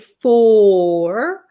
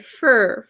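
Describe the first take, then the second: First: The word has a full, open vowel. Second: The word has a reduced, closed vowel. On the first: The speaker calls it wrong. "We don't usually say for" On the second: The speaker calls it right. "We say fur, Notice how closed my mouth is?"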